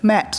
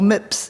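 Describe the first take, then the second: First: It is said with a standard, non-New Zealand vowel. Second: It is said with a New Zealand vowel.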